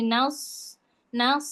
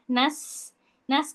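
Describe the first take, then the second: First: "nas" darkened towards "naus"; heavy s in "nas", rounded vowel; thick sod. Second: "Nas" with a light open a and thin s; happy thin sin. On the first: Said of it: "Kalau dia pakai sod". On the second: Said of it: "huruf sin versi yang kayaknya tuh happy". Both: Shown as a demonstration.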